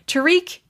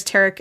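First: "Tariq" with stress on the second syllable; long ee ending on "Tariq"; chosen pronunciation. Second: "Tarek" with stress on the first syllable; unsure pronunciation. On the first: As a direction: say "Tariq" as ta-REEK, pitched up. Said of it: "we're gonna go with". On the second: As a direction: say "Tarek" as TARR-ek. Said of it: "I may be pronouncing that wrong". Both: Shown as a demonstration.

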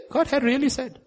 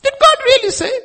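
First: Said in the usual way. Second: Very high, loud mocking question; devil's questioning. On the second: Devil sowing doubt about what God said, high mocking voice. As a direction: squeal it as a loud, doubting challenge. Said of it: "question of the devil".

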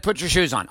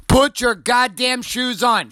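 First: Said in the usual way. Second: Slow, high-pitched exasperated yell; exasperated parent. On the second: Retold or imitated. Dad to daughter after six I ams, exasperated and raised. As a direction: stretch out each word, at the end of your patience. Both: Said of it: "After six I ams, I'm like".

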